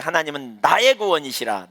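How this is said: The stress falls on the words 나의 구원. God saves me rather than judging me. "나의 구원을 강조하면"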